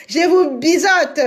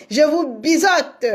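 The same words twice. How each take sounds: The two takes are said the same way.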